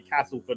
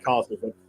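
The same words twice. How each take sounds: First: It is said in the local northern accent. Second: It is said in a southern cockney accent. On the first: The speaker is trying to fit in with locals. The speaker calls it right. "make a conscious effort to say Castleford all day" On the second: The speaker's own southern habit shows through. The speaker calls it wrong. "not say Castleford"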